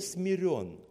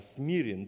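First: The stress is on the second syllable. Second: The stress is on the first syllable. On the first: He was made humble by something else. The speaker calls it wrong. "Не смирен" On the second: He is humble by his own nature. The speaker calls it right. "то есть смирен по своей природе"

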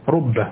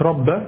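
First: The first vowel is a rounded u sound. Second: The first vowel is an open a sound. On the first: The speaker calls it right. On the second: The speaker calls it wrong.

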